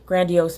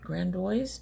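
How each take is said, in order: First: The name ends with an 'ee-ohs' sound. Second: The name ends with an 'oyz' sound. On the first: The speaker calls it right. "which makes much more sense" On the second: The speaker calls it wrong. "I bet you not Grandoise"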